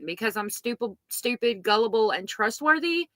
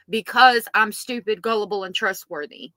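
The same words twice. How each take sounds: First: Rising, questioning end on "trustworthy". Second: Firm falling end on "trustworthy"; said as a statement. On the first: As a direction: ask it tentatively, lifting "trustworthy" at the end. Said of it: "she says it as a question". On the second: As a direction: state it as fact, "Because" hit hard, "trustworthy" dropping. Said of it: "She's not saying it as a statement". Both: Shown as a demonstration.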